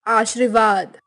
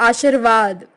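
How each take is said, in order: The two takes are said the same way.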